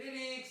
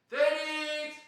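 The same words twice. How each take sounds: First: The call sounds plain, without amplification. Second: The call sounds louder and amplified through cupped hands. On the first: "il t'entend pas" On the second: "mettre tes mains comme ça ... il est plus grand ... il est amplifié le son"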